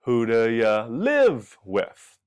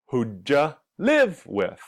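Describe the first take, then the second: First: "who do ya live with?" with separate "do" and "ya", slow; three-sound version. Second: "who ja live with" with did you blended into one "ja"; two-sound reduction. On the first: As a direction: keep "do" and "ya" apart, slowly. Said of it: "there's three sounds". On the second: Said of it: "there's two sounds". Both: Shown as a demonstration.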